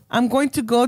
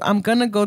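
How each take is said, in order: First: Going to is said in full, unreduced. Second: Going to is shortened to gonna. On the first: "we went from"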